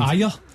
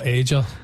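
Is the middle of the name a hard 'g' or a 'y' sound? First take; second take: y sound; hard g. First: The middle consonant is a 'y' sound. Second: The middle consonant is a hard 'g' sound. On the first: "how you actually pronounce it in your mind?" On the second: "for years, Ager. Inexplicably"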